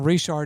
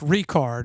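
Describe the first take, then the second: First: The middle consonant is a 'ch' sound. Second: The middle consonant is a 'k' sound. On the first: The speaker calls it wrong. "I've been saying Richard" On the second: The speaker calls it right. "It's Ricard"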